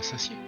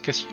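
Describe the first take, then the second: First: The word begins with a soft S sound. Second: The word begins with a hard K sound. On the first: The speaker calls it wrong. "pas, pas Sassier" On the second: The speaker calls it right. "ça se prononce Cassier"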